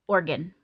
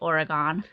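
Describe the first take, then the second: First: It is pronounced the way locals say it. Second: It is pronounced the way tourists say it. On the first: The speaker is from the region. The speaker calls it right. "that's how the locals will say the word" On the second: The speaker is an outsider. The speaker calls it wrong. "you definitely sound like a tourist when you say Oregon"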